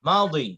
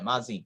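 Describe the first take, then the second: First: The middle consonant sounds like a 'd'. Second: The middle consonant sounds like a 'j'. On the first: This is how Arabs say it. "আরবেরা মাউদি বলে" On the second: This is how people in our country say it. "আমাদের দেশে মাজি বলে"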